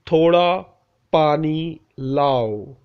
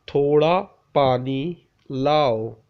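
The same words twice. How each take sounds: The two takes are said the same way.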